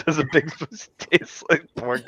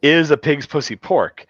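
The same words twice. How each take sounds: First: Higher, slow quote breaking into laughter; lightly imitated dimwit, softer and slow; mock idiot. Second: Slow, clear quote starting on a punched "is"; correct catchphrase. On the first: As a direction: misquote it like a dope, laughing. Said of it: "'Cause he's a fucking idiot". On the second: Shown as a demonstration. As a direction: stress on IS, slow and higher. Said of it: "And the line is".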